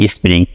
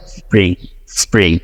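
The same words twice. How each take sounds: First: স্প্রিং with an inserted vowel, "spi-ring"; স্প্রিং the Bengali learner way; Bengali-style spring. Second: American accent. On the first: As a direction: say স্প্রিং with a rolled r and an extra vowel. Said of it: "আমরা কি বলি?". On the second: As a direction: do স্প্রিং like a native speaker, no extra vowel. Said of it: "কিন্তু ওরা কি বলে?". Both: Shown as a demonstration.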